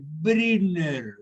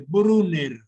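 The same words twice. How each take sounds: First: The first vowel is a front rounded ü. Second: The first vowel is a plain back u. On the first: The speaker calls it right. "una mezcla de U y I" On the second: The speaker calls it wrong. "no pueden decir"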